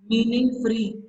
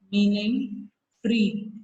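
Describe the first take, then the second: First: Said in the usual way. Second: "meaning free" drawn out very slowly word by word; slow it down so they can write "meaning free"; slow dictation. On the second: Shown as a demonstration. Teacher dictating notes to pupils, very slow and clear.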